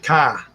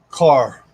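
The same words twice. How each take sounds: First: It is said with a Boston accent. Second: It is said with a Florida accent.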